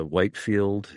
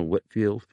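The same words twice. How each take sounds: First: "Whitefield" with a long i, as in white; mispronounced name. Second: "Whitfield" with a short i, as in wit; corrected pronunciation. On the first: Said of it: "somebody mispronounces it". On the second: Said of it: "and is corrected". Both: Retold or imitated.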